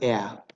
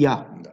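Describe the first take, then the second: First: The word begins with a full separate E vowel. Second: The word begins with a short Y-like glide. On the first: The speaker calls it wrong. "Nimeni nu pronunță ea" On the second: The speaker calls it right. "Acolo e un I, nu este un E"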